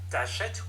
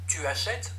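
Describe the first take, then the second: First: The pronoun is shortened and joined to the verb. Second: The pronoun is said in full before the verb.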